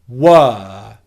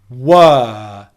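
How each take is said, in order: First: The vowel is a steady, held 'er' sound. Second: The vowel is a steady, held 'er' sound.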